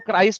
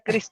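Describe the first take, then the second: First: The vowel sounds like 'eye'. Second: The vowel sounds like 'it'. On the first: The speaker calls it right. "वो क्राइस्ट होता है" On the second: The speaker calls it wrong. "क्रिस्ट नहीं होता"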